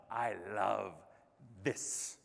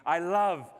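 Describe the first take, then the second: First: Low, soft, slowly spaced words; hushed sincerity. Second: "love" pushed out strongly; emphatic declaration. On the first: Speaker confessing love of keynotes to audience, hushed and sincere. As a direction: drop right down and let the last word fall almost to a whisper. Same declaration repeated low, softly. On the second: Speaker telling audience what they enjoy, "love" loud and emphatic. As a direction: lean hard on "love", held and raised. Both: Real, not acted.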